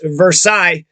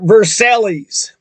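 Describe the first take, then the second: First: It is said the French way. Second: It is said the Kentucky way, every syllable.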